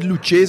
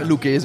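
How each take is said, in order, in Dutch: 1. De cch wordt met een zachte klank uitgesproken. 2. De cch wordt uitgesproken als een harde K. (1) "En niet Lucchese, want dan gaat je naar de hel" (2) "dus als twee C's en een H daarachter is een K"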